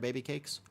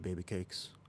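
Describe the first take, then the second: First: It is said in the speaker's ordinary voice. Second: It is said in an affected, put-on voice. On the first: The speaker calls it wrong. "I can't say baby cakes in my normal voice" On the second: The speaker calls it right. "Here we go"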